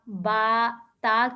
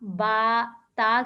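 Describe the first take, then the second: First: The vowels are an open 'a' sound. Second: The vowels are an open 'a' sound.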